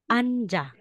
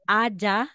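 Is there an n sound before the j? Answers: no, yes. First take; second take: yes; no. First: An n sound is heard before the j. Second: No n sound is heard before the j. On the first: The speaker calls it right. "magiging anja" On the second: The speaker calls it wrong. "instead na sasabihin mong aja"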